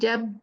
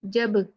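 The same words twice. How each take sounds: First: The final b stays closed with no release. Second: The final b is released with a bounce. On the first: The speaker calls it wrong. "we keep closing, there will be no jerk" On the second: The speaker calls it right. "touch the ba makhraj and leave quickly"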